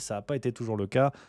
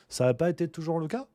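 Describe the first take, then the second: First: The voice falls at the end, like a statement. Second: The voice rises at the end, like a question. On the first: It is read as a plain statement. The speaker calls it wrong. "J'ai pas mis l'intonation" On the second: It is asked as a question. The speaker calls it right. "Point d'interrogation"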